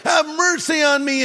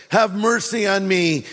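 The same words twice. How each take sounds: First: Higher, louder pleading cry; loud plea. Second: Said in the usual way. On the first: Retold or imitated. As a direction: call out desperately for mercy. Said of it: "really loudly". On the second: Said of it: "he cried out".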